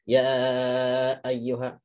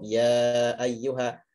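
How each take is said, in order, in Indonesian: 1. Vokal panjang dipotong-potong dan diputus. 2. Vokal panjang diucapkan mengalir mulus tanpa jeda. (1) "memotong suara huruf mat" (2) "Kalau saya dibaca cukup"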